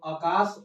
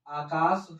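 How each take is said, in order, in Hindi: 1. पहला स्वर छोटा है। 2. पहला स्वर लंबा है। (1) "आकाश अशुद्ध होता है" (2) "आकाश शुद्ध होता है"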